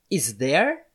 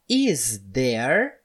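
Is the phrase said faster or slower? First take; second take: faster; slower. First: The phrase is said at a faster pace. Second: The phrase is said at a slower pace.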